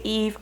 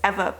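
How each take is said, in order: First: The name is said as Eve. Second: The name is said as Eva. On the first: The speaker calls it wrong. "I'm gonna say Eve, I know it's incorrect" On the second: The speaker calls it right. "I think it's Eva, but I'm not entirely sure"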